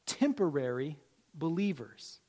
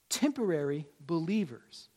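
No difference in how they are said.

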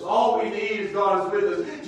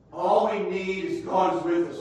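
First: Louder repeat, rising at the end; louder refrain. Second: First take, singing it out; sung refrain. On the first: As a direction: repeat it stronger. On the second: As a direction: chant the line once. Refrain repeated. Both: Real, not acted.

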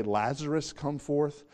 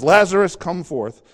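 First: Said in the usual way. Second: Calling Lazarus out loudly, a rising shout on the name. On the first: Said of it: "if he just with a loud voice said". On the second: Acted. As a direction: call the name out high and loud, as if across a distance. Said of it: "he calls and says".

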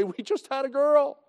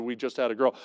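First: Proud announcement, pitched high; happy dad on the phone; pleased papa. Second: Said in the usual way. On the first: Retold or imitated. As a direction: announce it like a thrilled new father. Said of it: "very pleased papa to call". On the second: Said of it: "three times I went through".

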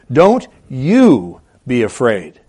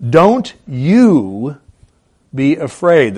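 First: "you" leaned on, slow and deliberate; stress on you. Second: Said in the usual way. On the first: Shown as a demonstration. Preacher to congregation, slow with the stress landing on "you". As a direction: press the "you" in "Don't you be afraid". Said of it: "There's an emphasis in the original here on the you". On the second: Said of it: "a better way to translate that is".

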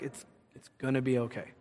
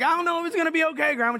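First: Low, soft grandmotherly reassurance; retold quiet, unshaken comfort; calm reassurance. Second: High, fast worried protest; retold fretful grandchild, pitched way up; doubtful protest. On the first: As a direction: soothe a worrier softly and low. Grandma calmly reassures doubting grandchild. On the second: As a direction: blurt out your doubt in a high voice. Doubting grandchild answers grandma's reassurance.

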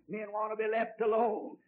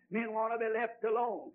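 The two takes are said the same way.

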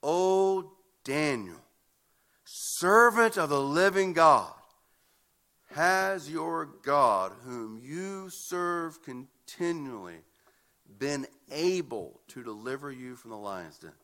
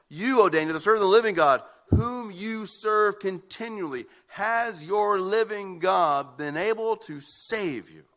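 First: Slow, drawn-out plea full of anguish; anguished cry. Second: Louder, slowing cry of anguish. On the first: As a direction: call out slowly, aching for his friend. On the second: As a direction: cry out louder, the king desperate for an answer. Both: A narrator's reading. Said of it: "In anguish, he cries out".

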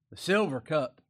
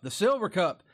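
First: "silver" leaned on, cup said plainly after it; first reading of "the silver cup" with a light lift on "silver"; stress on silver. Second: "silver" hit louder and falling, cup dropped after it; stress on silver. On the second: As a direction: repeat "the silver cup", driving "silver" home louder. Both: Shown as a demonstration. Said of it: "not any old cup".

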